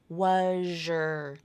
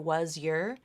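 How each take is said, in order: First: The z and y merge into zh. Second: The z and y sounds stay separate. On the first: "if you use the assimilation, it sounds like was your" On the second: "A native speaker can always choose to say was your"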